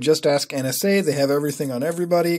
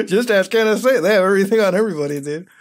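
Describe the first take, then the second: First: Said in the usual way. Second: Higher, louder, through laughter; laughing. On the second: Real, not acted. Repeating a funny comment to viewers, laughing. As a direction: repeat it while cracking up.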